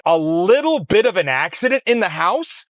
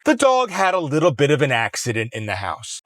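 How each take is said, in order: First: Higher, disbelieving repeat of her words; incredulous echo. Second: Said in the usual way. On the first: Retold or imitated. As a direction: throw her phrase back in disbelief. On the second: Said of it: "she starts laughing it off".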